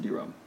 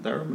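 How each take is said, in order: First: Diram with first syllable like "dee"; Diram, opening on an "ee" vowel; alternative pronunciation. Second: Dairam with first syllable like "die"; Dairam, opening on a long "eye" vowel; pronunciation check. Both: Shown as a demonstration. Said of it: "or is it Dairam or Diram".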